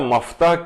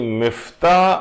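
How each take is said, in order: First: The first vowel is an a sound. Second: The first vowel is an i sound. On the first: "जबर के साथ हो" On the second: "जेर हो"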